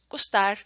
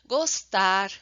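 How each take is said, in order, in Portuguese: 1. Vogais reduzidas, no estilo do português europeu. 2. Vogais abertas e plenas, no estilo do português brasileiro. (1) "no português europeu seria" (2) "a gente usa muito constantemente vogais abertas"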